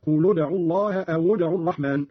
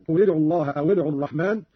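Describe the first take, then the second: First: قل as "qulu" and أو as "awu"; Qalun's u linking. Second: Said in the usual way. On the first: Shown as a demonstration. Teacher showing Qalun's reading, "qulu" for قل, "awu" for أو. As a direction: link قل and أو to ادعوا with a short u. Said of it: "قرأ قالون بضم اللام والواو هكذا". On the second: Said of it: "قرأ قالون بضم اللام والواو".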